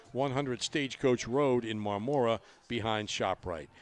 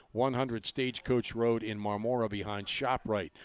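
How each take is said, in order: No difference in how they are said.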